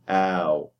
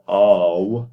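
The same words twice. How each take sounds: First: The diphthong starts with a fronter vowel. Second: The diphthong starts with a back open ah. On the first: The speaker calls it right. "change the ah into a. So it will be ow" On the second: The speaker calls it wrong. "You don't say ow"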